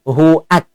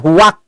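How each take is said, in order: First: A clear glottal stop separates hu from ak. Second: A w sound links hu into ak. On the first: The speaker calls it right. "Maka harus tegas huruf hamzahnya itu" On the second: The speaker calls it wrong. "Bukan huwak"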